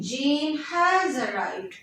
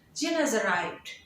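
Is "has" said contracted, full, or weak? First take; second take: full; weak. First: The word has is said fully and clearly. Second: The word has is weakened to a short as. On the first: "rather than saying Jane has arrived" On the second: "If you will weaken the sound"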